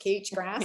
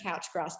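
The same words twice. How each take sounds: First: It is said the Australian way. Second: It is said the Northern Hemisphere way.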